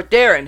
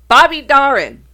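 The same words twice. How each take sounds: First: "Darin" said with a different vowel; alternative pronunciation of Darin. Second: "Darin" said the first way, higher and louder; first pronunciation of Darin. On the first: Host offering listeners another way, alternative pronunciation of [name]. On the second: Host introducing the singer [name], first pronunciation. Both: Shown as a demonstration. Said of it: "however you wanna pronounce it".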